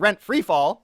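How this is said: Free is joined to fall, as free-fall. Rents are dropping sharply. The speaker calls it right. "free fall, I guess is how you say it"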